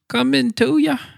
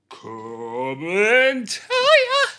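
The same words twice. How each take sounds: First: It is said with little energy. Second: It is said with much more energy.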